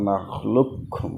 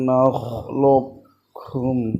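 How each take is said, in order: First: The q fully merges into a doubled k. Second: The q is partly held before the k. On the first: "বড় কাফ যেটা ... সেটা উচ্চারিত হবে না ছোটো কাফটাই উচ্চারিত হবে তাসদিদ দিয়ে" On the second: "ইজহারের দিগামের মধ্যবর্তী অবস্থা ... একটু বড় করে ধরবেন"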